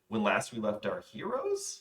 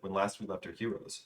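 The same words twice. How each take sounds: First: The voice rises at the end, like a question. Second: The voice falls at the end, as a statement.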